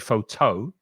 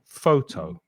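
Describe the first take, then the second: First: The stress is on the second syllable. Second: The stress is on the first syllable. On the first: The speaker calls it wrong. "We don't say photo" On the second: The speaker calls it right. "we stress the first syllable"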